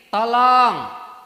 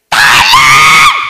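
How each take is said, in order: First: It is an ordinary, unremarkable call for help. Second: It is a terrifying scream from deep inside.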